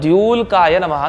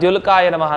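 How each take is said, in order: First: The first vowel is long. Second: The first vowel is short. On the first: The speaker calls it right. "ಅಂತ ಹೇಳ್ಬೇಕು" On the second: The speaker calls it wrong. "ನಾವೆಲ್ಲ ಸಾಮಾನ್ಯ ಅಭ್ಯಾಸ ಆದಾಗ ... ಅಂದ್ಬಿಡ್ತೀವಿ"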